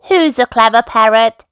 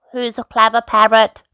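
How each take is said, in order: First: Slightly raised, cooing granny voice; a hint of a doting granny; Granny Pig. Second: Lightly voiced mimicking bird; Polly the parrot. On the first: Granny beaming at her parrot, lightly raised doting voice. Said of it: "Granny Pig said, beaming at Polly". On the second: Parrot copying granny, light bird mimicry. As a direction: repeat it like a parrot, slightly raised. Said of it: "Polly copied". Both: A narrator's reading.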